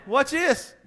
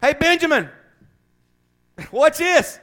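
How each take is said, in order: First: Shorter, high whine; repeating the scared soldier's question in a whine; whining. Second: High, loud whining mockery; mocking a soldier too scared to fight, whining high. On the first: Acted. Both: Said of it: "Yeah, whining".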